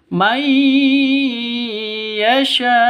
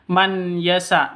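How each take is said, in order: First: The n merges into a nasal y. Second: The n is said clearly before the y. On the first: The speaker calls it right. "langsung mai, bukan man yasa, tapi mai" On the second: The speaker calls it wrong. "bukan man yasa"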